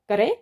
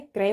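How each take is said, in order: First: क्रय said as "ka-rey"; wrong split cluster. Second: क्रय in one syllable, "krey"; correct joined cluster. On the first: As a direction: put a vowel between k and r in क्रय. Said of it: "गलत लिखा है". (क्रय को "करे" बोलें) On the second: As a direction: run k straight into r in क्रय. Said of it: "क्रय होता है". (क्रय में क और र मिलाकर) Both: Shown as a demonstration.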